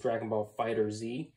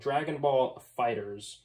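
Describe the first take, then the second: First: The last word ends with a separate letter 'Z'. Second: The last word ends with a plain 'z' sound. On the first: The speaker calls it wrong. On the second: The speaker calls it right.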